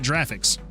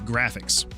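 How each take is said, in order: First: The word begins with a J sound. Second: The word begins with a hard G sound. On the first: The speaker calls it wrong. "not graphics. Those would be dinosaurs" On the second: The speaker calls it right. "it is GIF because it's graphics"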